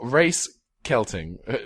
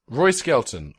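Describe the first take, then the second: First: The name's sounds are shifted and garbled. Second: The name is said in its ordinary form. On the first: The speaker calls it wrong. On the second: The speaker calls it right.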